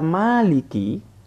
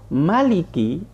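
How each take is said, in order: First: The first vowel after m is long. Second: The first vowel after m is short. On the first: The one who owns. "mimnya panjang" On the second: The one who reigns as king. "mimnya dibaca pendek"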